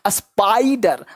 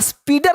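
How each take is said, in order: First: The first vowel sounds like "eye". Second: The first vowel sounds like "ee". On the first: The speaker calls it right. "आई का sound क्या आई" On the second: The speaker calls it wrong. "इसलिए इसको स्पीडर नहीं पढ़ते"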